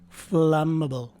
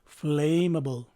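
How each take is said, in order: First: The first vowel is short, as in flat. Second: The first vowel is long, as in flame. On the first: The speaker calls it right. "the correct way to say this word is flammable... The first letter A is a short A" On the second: The speaker calls it wrong. "mispronounce this word as flammable... follow the pronunciation of its root word, flame"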